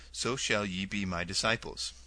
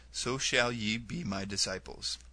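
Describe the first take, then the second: Both takes have the same delivery.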